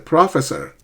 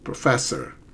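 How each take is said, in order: First: The stress is not on the second syllable. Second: The stress is on the second syllable. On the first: The speaker calls it wrong. "they would say professor" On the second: The speaker calls it right. "it's the second syllable that's stressed"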